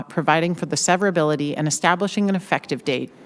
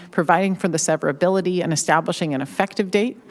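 The two takes are said the same way.

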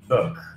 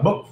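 First: The word is said calmly with a level pitch. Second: The word is clipped and the pitch jumps up. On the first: The speaker calls it right. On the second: The speaker calls it wrong.

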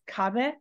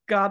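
First: The word begins with a voiceless k sound. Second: The word begins with a voiced g sound. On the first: The speaker calls it right. "it's kabe" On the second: The speaker calls it wrong. "it's not gabe"

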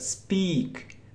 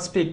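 First: The vowel is said long. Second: The vowel is said short. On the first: The speaker calls it right. "but speak. It's long sound" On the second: The speaker calls it wrong. "not speak"

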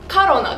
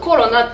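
First: The first vowel sounds like a, Russian style. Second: The first vowel sounds like o, Japanese style. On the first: "ロシア語だとカロナです" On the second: "日本だとコロナって言うんですけど"

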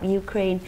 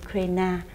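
First: The name is said with an international pronunciation. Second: The name is said with a Vietnamese pronunciation. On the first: "quốc tế đọc Ukraine" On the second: "Việt Nam mình thì lại đọc là Ukraine"

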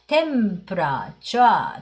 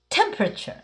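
First: It is said Japanese-style with even syllables. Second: A strong stress hits the first syllable. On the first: The speaker calls it wrong. "日本語でtemperature って言っちゃうと" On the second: The speaker calls it right. "最初にボンとアクセントをつけると、あとはふにゃふにゃ"

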